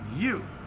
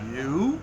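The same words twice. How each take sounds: First: The pitch falls sharply on the word. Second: The pitch rises on the word. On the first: It is a flat statement, not a question. "when he says "you" with a fourth tone" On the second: It asks a question. "which I would probably understand"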